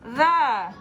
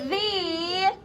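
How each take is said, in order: First: The vowel is a weak uh sound. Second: The vowel is a long ee sound. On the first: This is how the word is normally spoken. "but we say the ... pronounce it with a schwa or the uh sound" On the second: This is how the word is spelled. "We have to think the, ... the vowel is saying its name"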